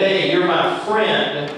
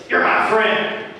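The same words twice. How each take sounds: First: Slow, sincere and friendly. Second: Higher, insincere "You're my friend". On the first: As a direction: say it so they believe you. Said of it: "and I say it like this, you're gonna believe me". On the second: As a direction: say it so nobody believes you. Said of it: "you're gonna think, "Uh, I don't think you are my friend". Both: Shown as a demonstration.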